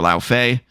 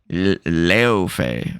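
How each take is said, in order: First: The first syllable sounds like 'lao'. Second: The first syllable sounds like 'leo'. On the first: The speaker calls it wrong. "which is actually not how you say it" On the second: The speaker calls it right. "Apparently, it's like Leo Fei"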